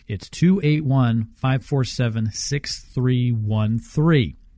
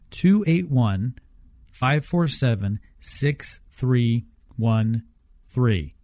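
First: The number is read at normal speed. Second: The number is read slowly.

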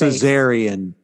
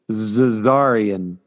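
First: The word sounds like the C-section term Caesarean. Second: The word does not sound like Caesarean. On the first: The speaker calls it wrong. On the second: The speaker calls it right.

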